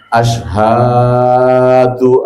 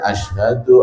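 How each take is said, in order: First: The word is stretched out far too long. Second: The word is said at normal length. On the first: The speaker calls it wrong. "nah ini yang sering terjadi segitu" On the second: The speaker calls it right. "Padahal itu nggak boleh panjang"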